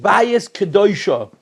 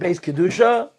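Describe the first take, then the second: First: The first word is said as two syllables. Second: The first word is said as one syllable. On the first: The speaker calls it right. "You should pronounce it bayis kedusha" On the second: The speaker calls it wrong. "you shouldn't pronounce it beis kedusha"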